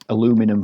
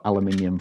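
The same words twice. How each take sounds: First: Aluminum said "a-LOO-mi-num"; four-syllable American aluminum; American pronunciation. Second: Aluminium said "al-yuh-MIN-ee-um"; five-syllable English aluminium; English pronunciation. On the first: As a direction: stress the second syllable of aluminum, American style. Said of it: "for our American friends". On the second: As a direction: stress MIN in aluminium, British style. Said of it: "for all the English people out there". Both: Shown as a demonstration.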